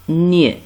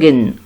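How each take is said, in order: First: The g and n blend into one ny sound. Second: The g and n are sounded separately. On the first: The speaker calls it right. "G N se prononce Nie" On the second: The speaker calls it wrong. "ce n'est pas Gen"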